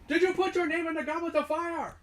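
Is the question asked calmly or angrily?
angrily. The question is asked angrily.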